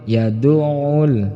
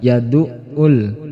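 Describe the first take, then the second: First: The middle consonant is a throaty pharyngeal sound. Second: The middle consonant is a plain glottal stop. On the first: The speaker calls it right. "tetapi ain" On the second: The speaker calls it wrong. "jangan sampai keliru menggunakan hamzah"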